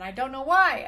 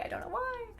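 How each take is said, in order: First: Said in the usual way. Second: Very high, soft repeat; puzzled high echo. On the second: Real, not acted. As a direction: let it float up small and baffled.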